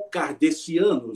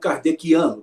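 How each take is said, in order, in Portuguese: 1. O c é pronunciado com som de s. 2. O c é pronunciado com som de k. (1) "já não usando o fonema, usando apenas a grafia" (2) "que é aceito"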